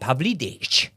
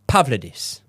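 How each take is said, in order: First: The name ends with a ch sound. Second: The name ends with an s sound. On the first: The speaker calls it wrong. "I've heard people pronouncing it Pavlidich" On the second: The speaker calls it right. "So I would say Pavlidis"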